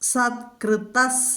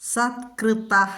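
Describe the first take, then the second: First: The word ends with an s sound. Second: The word ends with a breathy h sound. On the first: The word is joined to the next word. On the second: The word stands alone.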